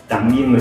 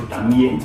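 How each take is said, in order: Both takes have the same delivery.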